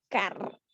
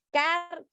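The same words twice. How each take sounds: First: "car" said low and soft, same sound repeated; repeating the root sound. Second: "Car" said high, drawn out as a sound example; demonstrating the root sound. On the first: Teacher to class, repeating "car" lower. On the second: Teacher to class, demonstrating "Car" clearly. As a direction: pronounce "Car" as a demo of the unchanged root. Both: Shown as a demonstration. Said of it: "El sonido seguía siendo el mismo".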